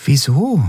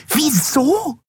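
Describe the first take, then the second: First: Said in the usual way. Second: „Wieso?“ echoed much higher in a shrill squeal; shrill repeat. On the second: A narrator's reading. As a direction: throw the word back shrilly. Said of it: "wiederholte die Yadi schrill". („Wieso?“ schrill und viel höher nachgeäfft)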